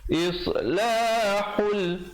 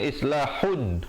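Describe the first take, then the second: First: The final n merges into an l sound. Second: The word ends with a clear n sound. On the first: "di situ idgham bila gunnah" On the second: "asalnya islahun"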